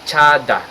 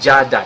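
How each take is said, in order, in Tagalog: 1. Nagsisimula ang salita sa walang-tinig na tunog na 'ch'. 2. Nagsisimula ang salita sa may-tinig na tunog na 'j'. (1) "we call it chada" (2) "not jada. It's never jada"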